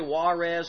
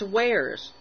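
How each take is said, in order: First: The word is said as two syllables. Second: The word is said as one syllable. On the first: The speaker calls it wrong. "I hate it when people say Juarez" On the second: The speaker calls it right. "it's wares"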